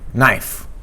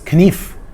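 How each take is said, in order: First: The K at the start is silent. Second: The K at the start is pronounced. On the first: This is the modern pronunciation. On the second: This is the Middle English pronunciation.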